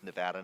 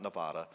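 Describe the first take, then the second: First: The name is said the local way. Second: The name is said the outsider way. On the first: The speaker calls it right. "I learned it's Nevada" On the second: The speaker calls it wrong. "not Nevada"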